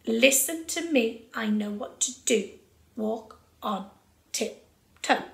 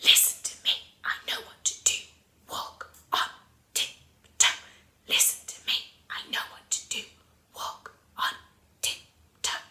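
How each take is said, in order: First: Said in the usual way. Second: Crisp whisper on a steady beat; stage whisper. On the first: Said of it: "got it really in time". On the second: Shown as a demonstration. Teacher models the rhythmic phrase for pupils, stage whisper. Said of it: "put it into a stage whisper".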